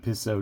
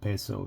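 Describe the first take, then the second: First: The first vowel sounds like 'ee'. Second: The first vowel sounds like 'ay'. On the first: The speaker calls it wrong. "I always want to call it a piso just because I'm from English" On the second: The speaker calls it right. "the I would be an E, so you have peso"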